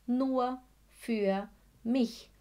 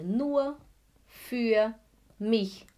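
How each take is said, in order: First: Said in the usual way. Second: Each word set apart with pauses; slow, separated nur, für, mich. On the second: Shown as a demonstration. Teacher spelling out the phrase for students, word by word.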